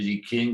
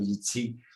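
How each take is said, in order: First: The second word begins with a hard k sound. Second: The second word begins with a ts sound. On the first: This is the long-familiar way of saying it. "on avait beaucoup d'habitude de prononcer King" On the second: This is closer to the original Chinese. "entre le T et le S"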